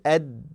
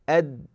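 The two takes are said the same way.

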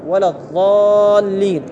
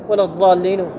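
First: The vowel before the doubled L is drawn out. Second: The vowel before the doubled L is cut short. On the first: The speaker calls it right. "لكي لا يوجد الخلل وأرفع الخلل ماذا أقول؟" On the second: The speaker calls it wrong. "تحس أكو ماذا؟ أكو إخلال"

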